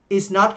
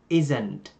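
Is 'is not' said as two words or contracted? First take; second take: two words; contracted. First: Is and not are said as separate words. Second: Is and not merge into one word.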